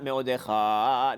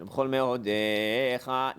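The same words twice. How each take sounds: First: Me'odecha stressed on the last syllable; wrong accent. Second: Slow, me'odecha stressed on de; correct accent. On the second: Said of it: "so that's you accent". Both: Shown as a demonstration.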